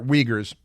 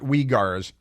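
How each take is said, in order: First: The word does not rhyme with cigar. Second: The word sounds like it rhymes with cigar. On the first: The speaker calls it right. "they're Uyghurs" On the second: The speaker calls it wrong. "not Uyghurs. Uyghur is like a, a big rolled tobacco product"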